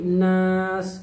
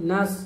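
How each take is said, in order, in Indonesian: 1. Vokalnya ditahan panjang. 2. Vokalnya dibaca pendek. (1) "jadi langsung baca panjang nas" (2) "Jangan langsung nas gitu ya"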